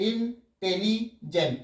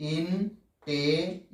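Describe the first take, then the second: First: intelligent in three beats, tele run together; mistaken syllable split. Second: intelligent slowly as ইন, টে, লি, gent; four separate beats. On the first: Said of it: "এরকম নয় কিন্তু". (Intelligent তিন ভাগে, tele একসাথে) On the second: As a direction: split টে from লি in intelligent with clear pauses. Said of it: "চারবারে হচ্ছে". (Intelligent ধীরে চারবারে ভেঙে) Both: Shown as a demonstration.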